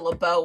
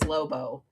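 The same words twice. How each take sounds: First: The name is said with a French pronunciation. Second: The name is said with an English pronunciation. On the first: This is how the name is meant to sound. The speaker calls it right. "my Alexa does not speak French" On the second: This is how the voice assistant says it. The speaker calls it wrong. "The closest I can get it to"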